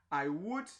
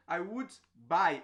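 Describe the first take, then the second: First: Said in the usual way. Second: Slow, words drawn out; slow demo. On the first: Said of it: "teacher repeats phrase". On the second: Shown as a demonstration. Teacher to students, drawing the phrase out slowly. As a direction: stretch the phrase for the class. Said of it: "teacher repeats phrase slowly".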